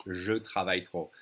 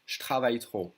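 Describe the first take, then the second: First: «je travaille trop» with je as a full, separate syllable; nicely said. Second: «je travaille trop» said as shtravaille trop; colloquial contraction. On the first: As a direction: say «je travaille trop» neatly, E of je sounded. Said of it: "instead of nicely saying". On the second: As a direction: swallow the E of je in «je travaille trop», leaving sh. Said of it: "The French will always say". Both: Shown as a demonstration.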